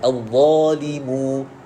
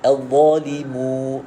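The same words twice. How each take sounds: Both takes have the same delivery.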